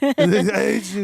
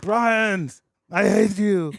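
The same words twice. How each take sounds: First: Slow, high, loud shout through a laugh; laughing mock shout. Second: Mock angry yell. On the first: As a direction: drag out the yell, cracking up. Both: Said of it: "And you're like".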